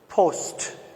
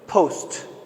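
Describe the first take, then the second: Both takes have the same delivery.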